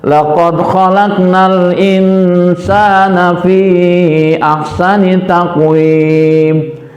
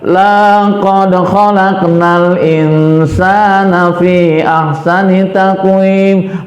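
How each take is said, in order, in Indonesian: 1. Vokal pertama laqad pendek. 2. Vokal pertama laqad dipanjangkan.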